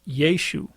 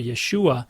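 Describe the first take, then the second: First: The name ends without a final 'ah' sound. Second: The name ends with a final 'ah' sound. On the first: This is how people from the northern region likely said it. "they would not have pronounced the little a on the end" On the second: This is the commonly assumed form of the name. "many people think it's Yeshua"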